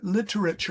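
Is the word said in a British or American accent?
British. It is said with a British accent. "British style literature, literature with a nice"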